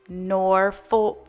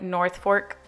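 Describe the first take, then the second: First: The first syllable has no 'th' sound. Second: The first syllable has a clear 'th' sound. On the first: The speaker calls it right. "it's Norfolk folk and not North" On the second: The speaker calls it wrong. "I said like North Fork garland"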